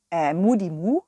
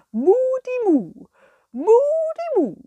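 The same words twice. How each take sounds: First: Said in the usual way. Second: Cow voice. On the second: Acted. The cow Kurita greeting the children, high and mooing. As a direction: sing out your cow word like a puppet cow. Cow puppet calls its word.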